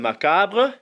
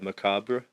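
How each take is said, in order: First: The word is given a French pronunciation. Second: The word is given an English pronunciation. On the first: "So en français, c'est un macabre" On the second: "In English, it's uh, macabre"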